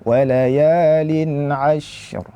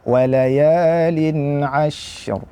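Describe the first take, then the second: No difference in how they are said.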